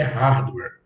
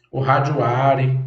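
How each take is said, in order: First: "hardware" said cleanly as HARD-wer; correct pronunciation. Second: "hardware" mocked as "hárdjuari", extra vowels added; slow mock of people saying "hardware" as "hárdjuari"; imitating wrong pronunciation. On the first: Shown as a demonstration. Teacher giving students the right way: "hardware" as HARD-wer. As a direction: model "hardware" as HARD-wer, stress on the first syllable. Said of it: "a pronúncia correta é". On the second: Teacher mocking how some people say it: slow "hardware" as "hárdjuari". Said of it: "Tem gente que chama hardware".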